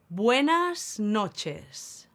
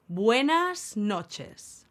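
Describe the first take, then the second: No difference in how they are said.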